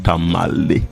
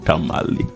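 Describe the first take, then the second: First: The name is said as Tamale. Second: The same.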